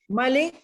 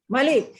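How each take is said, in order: No difference in how they are said.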